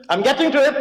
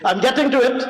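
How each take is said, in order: Both takes have the same delivery.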